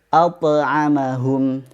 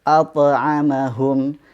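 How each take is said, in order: Both takes have the same delivery.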